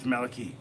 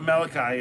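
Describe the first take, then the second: First: The name ends with a 'kee' sound. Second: The name ends with a 'kai' sound. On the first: The speaker calls it right. "it's Maliki" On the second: The speaker calls it wrong. "It's not Malachi"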